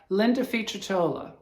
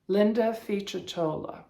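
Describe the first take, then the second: First: The surname's 'c' has the Italian sound. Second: The same.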